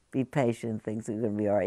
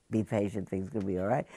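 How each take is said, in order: First: Consoling voice. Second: Said in the usual way. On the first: Shown as a demonstration. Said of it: "a consoling voice that's gonna say". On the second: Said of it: "You can't say to the".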